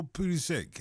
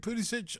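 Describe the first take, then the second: First: Pulisic ending in a "k" sound; hard k ending. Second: Pulisic ending in a "ch" sound. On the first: Host offers co-host the other way of saying the name, Pulisic with final "k". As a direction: say Pulisic as "POO-li-sick". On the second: Host offers co-host one way of saying the name, Pulisic with final "ch". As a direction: say Pulisic as "POO-li-sitch". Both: Shown as a demonstration. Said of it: "how do you pronounce it".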